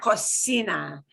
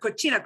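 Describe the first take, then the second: First: The word is said with a Spanish sound. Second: The word is said with an Italian-like sound. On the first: The speaker calls it right. "But cocina" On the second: The speaker calls it wrong. "it's important not to pronounce it as cochina. Muy italiano"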